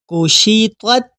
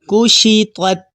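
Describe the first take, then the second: First: The word is said in its connected form. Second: The word is said in its pausal form.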